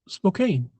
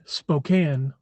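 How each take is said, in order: First: The last syllable sounds like 'cane'. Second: The last syllable sounds like 'can'. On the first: The speaker calls it right. "That's pronounced cane. So it's Spokane" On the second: The speaker calls it wrong. "Some people say it's supposed to be Spokane"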